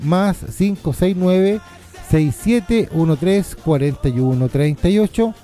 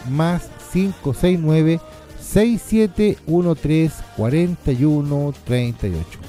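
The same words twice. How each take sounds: First: The number is read at normal speed. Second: The number is read more slowly.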